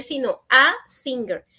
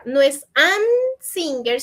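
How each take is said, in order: First: "a" stressed as the correct article. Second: "an" stressed and set apart as the error; wrong article shown. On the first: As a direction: land firmly on "a". ("a" acentuada como la forma correcta) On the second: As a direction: mark "an" as the wrong form. ("an" marcado como error) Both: Shown as a demonstration.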